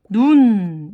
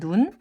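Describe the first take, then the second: First: The vowel is said long. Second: The vowel is said short. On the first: It means snow. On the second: It means eye.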